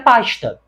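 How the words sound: The s before t sounds like sh.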